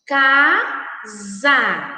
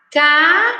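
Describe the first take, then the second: First: "Casa" said again calmly, falling, "sa" voiced as za; clear model word. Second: "Casa" said aloud, loud and rising, "sa" voiced as za; clear model word. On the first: Teacher repeats "Casa" for the class, calm and falling. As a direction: repeat "Casa" evenly so the class hears the z sound. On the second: Teacher models "Casa" aloud for children at home, loud and clear. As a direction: spell out "Casa" loudly for the kids to copy. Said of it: "Fale alto, em voz alta". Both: Shown as a demonstration.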